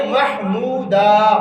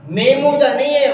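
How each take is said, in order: First: محمودا slowly as "mah-moo-daa"; full h and long vowels in محمودا; correct pronunciation. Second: محمودا as "may-moo-da"; wrong pronunciation. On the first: Teacher correcting from the Quran, correct pronunciation. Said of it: "قرآن مجید میں کیا ہے". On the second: Teacher rejecting the common form, wrong pronunciation. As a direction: drop the h in محمودا. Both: Shown as a demonstration.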